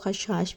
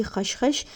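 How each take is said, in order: First: खशखाश with a long 'aa' in the last syllable; alternative khashkhaash pronunciation. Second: खशखश with two short 'a' vowels; khashkhash pronunciation. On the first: Cook gives viewers the other name, खशखाश with long final vowel. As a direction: stretch the second vowel: khash-KHAASH for खशखाश. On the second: Cook names the main ingredient for viewers, खशखश with short final vowel. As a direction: say खशखश slowly, last syllable short like 'khush'. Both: Shown as a demonstration. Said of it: "कुछ लोग खशखाश भी कहते हैं".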